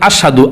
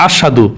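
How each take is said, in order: The two takes are said the same way.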